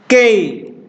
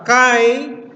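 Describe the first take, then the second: First: The vowel is pronounced as 'ei'. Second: The vowel is pronounced as 'ai'. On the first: It follows the modern reading. "dalam bahasa modern bisa dibaca dengan ucapan kei" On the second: It follows the Erasmian reading. "apa Erasmian ya kan"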